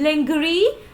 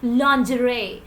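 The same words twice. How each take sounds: First: The consonant after n is a hard g. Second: The consonant after n is a soft zh. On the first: The speaker calls it wrong. "There is no g sound" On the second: The speaker calls it right. "The sound will be jaw, not g"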